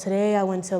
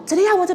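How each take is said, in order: First: It is said in a flat, monotone voice. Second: It is said in a lively, varied voice.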